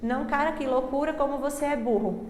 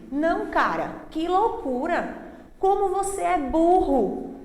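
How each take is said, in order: First: It is read with flat, unexpressive intonation. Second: It is read with lively, exclamatory intonation. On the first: The meaning of the meme is not conveyed. The speaker calls it wrong. "às vezes a gente diz" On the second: The punctuation is brought to life in the reading. The speaker calls it right. "quando eu falo assim, é justamente para que você... possa compreender... falar com entonação"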